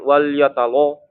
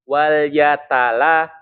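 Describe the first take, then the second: First: The l sound is heavy and thick. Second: The l sound is light and thin. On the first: The speaker calls it wrong. "Tapi jangan wal yatalo" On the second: The speaker calls it right. "to-nya yang tebal"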